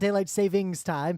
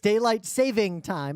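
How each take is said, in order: First: The middle word ends with an s sound. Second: The middle word ends without an s sound. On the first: The speaker calls it wrong. "It's not daylight savings time" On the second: The speaker calls it right. "There's no S on the end"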